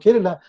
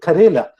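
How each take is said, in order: First: The name is said as Kerala. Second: The name is said as Karela. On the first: The speaker calls it right. "tell you're from Kerala" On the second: The speaker calls it wrong. "they may even mispronounce it. They call it Karela"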